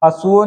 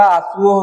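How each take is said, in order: First: हंसुओ begun with short un-nasal "a": "asuo"; short oral vowel. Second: Said in the usual way. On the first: Shown as a demonstration. Teacher showing students a wrong form, short first vowel in हंसुओ. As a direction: drop the nasal from the start of हंसुओ. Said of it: "नहीं होता". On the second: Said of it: "होगा".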